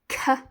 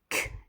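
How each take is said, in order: First: The consonant is followed by an extra 'uh' vowel. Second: The consonant is said alone with no added vowel. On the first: The speaker calls it wrong. "if you schwa and say l and k incorrectly" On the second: The speaker calls it right. "instead of saying k at the end of milk"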